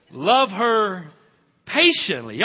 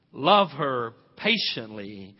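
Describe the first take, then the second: First: Love her patiently thrown high and loud; loud ringing repeat. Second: Love her patiently, each word stretched slow; drawn out, stress on love; slow emphatic repeat. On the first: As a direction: call it out to the room. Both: Shown as a demonstration.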